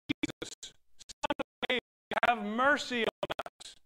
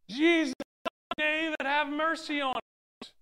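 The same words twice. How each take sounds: First: It is called out at normal volume. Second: It is called out more loudly.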